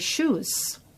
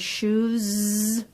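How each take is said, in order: First: The final sound is a voiceless s. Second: The final sound is a voiced z. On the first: "a devoicing of the final Z sound" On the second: "with a Z sound at the end"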